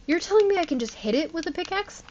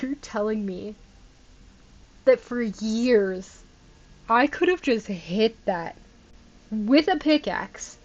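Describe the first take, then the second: First: Quick, higher, astonished question; rushed incredulous question; disbelief. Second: "You're telling me that for years" drawn out slowly, word by word; slow, deliberate incredulous question; slow disbelief. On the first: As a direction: blurt it out in shock. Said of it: "Are you kidding me right now?". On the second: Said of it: "I'm so angry right now". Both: Real, not acted.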